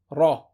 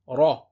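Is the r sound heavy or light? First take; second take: heavy; heavy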